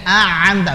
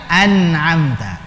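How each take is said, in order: First: The n is merged away into the next sound. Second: The n is pronounced clearly and distinctly. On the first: The speaker calls it wrong. "Jadi idgham, tidak. Enggak enak" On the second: The speaker calls it right. "Yang paling enak an'amta, idhar"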